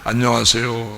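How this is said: It imitates the way men say the greeting.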